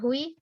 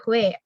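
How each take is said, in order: First: The vowel ends in an ee sound. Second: The vowel ends in an eh sound. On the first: The speaker calls it wrong. "Ini bukan hui" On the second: The speaker calls it right. "tapi hue"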